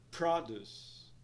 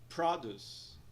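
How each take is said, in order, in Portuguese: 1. A ênfase está na primeira sílaba. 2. A ênfase está na primeira sílaba.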